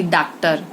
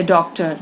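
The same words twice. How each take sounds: First: डॉक्टर said with a flat a, like "daktar"; wrong pronunciation. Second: डॉक्टर said with a rounded open o, as in "doctor"; correct pronunciation. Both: Shown as a demonstration. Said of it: "न कि डॉक्टर".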